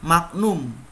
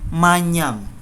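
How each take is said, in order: First: The middle is said as separate g and n. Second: The middle is said as a single ny sound. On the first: The speaker calls it wrong. "salah kalau ada yang mengatakan" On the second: The speaker calls it right. "yang ada adalah manyam"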